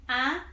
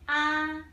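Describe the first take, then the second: First: The pitch rises from middle to high. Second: The pitch stays high and level. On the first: "you start from your middle voice. Then you go up directly" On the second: "we start from your highest voice, then you keep it flat"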